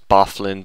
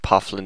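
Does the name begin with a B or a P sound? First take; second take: B; P. First: The name begins with a B sound. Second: The name begins with a P sound. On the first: The speaker calls it wrong. "that's Bofflin" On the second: The speaker calls it right. "Pofflin is how it's pronounced"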